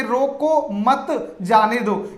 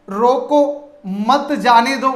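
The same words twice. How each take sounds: First: Slow रोको मत, break, then जाने दो; pause after मत. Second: Slow, रोको set apart from मत जाने दो; pause after रोको. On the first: Teacher contrasting the second sentence for students, slow with pause after मत. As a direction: keep मत with रोको and set जाने दो apart. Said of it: "यानी कि रोकिए मत". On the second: Teacher explaining the first sentence's comma, slow with pause after रोको. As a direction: stop after रोको, then run मत जाने दो together. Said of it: "यहां आपके अल्प विराम". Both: Shown as a demonstration.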